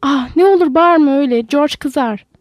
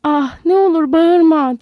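First: Louder, frightened begging; pleading. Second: Higher, louder, slow plea near tears; tearful pleading. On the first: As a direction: beg her to stop screaming. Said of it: "diye yalvardı sonra". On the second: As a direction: beg through rising fear, drawn out. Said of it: "Lenny korkudan ağlamaya başladı". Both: A narrator's reading.

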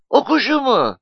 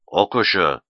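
First: Very high-pitched innocent query; naive, scared question. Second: Low, cutting reply; knife-sharp. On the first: Nuri stalls before furious Mustafa, naive question. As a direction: ask it high, like a guileless child. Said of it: "diye safça sordu Nuri". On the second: Mustafa confronts frightened Nuri, voice like a knife. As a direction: answer low with a threatening edge. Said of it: "Mustafa'nın sesi bıçak gibiydi". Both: A narrator's reading.

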